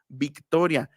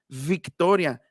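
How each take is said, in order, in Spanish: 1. El primer sonido usa los dos labios juntos. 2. El primer sonido usa el labio inferior y los dientes. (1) "En realidad se debe pronunciar" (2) "no existe eso de pronunciar victoria"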